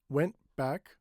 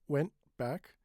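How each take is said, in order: The two takes are said the same way.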